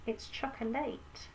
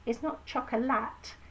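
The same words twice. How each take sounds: First: "chocolate" slowly, with all three syllables; "choc-o-LATE", the end said like "late"; spelling pronunciation. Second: Said in the usual way. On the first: Shown as a demonstration. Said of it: "It's not chocolate, it's chocolate".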